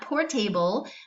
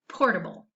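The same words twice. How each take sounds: First: The ending is said like the full word able. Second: The ending is reduced with a schwa vowel. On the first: The speaker calls it wrong. "It is pronounced not" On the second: The speaker calls it right. "that schwa sound"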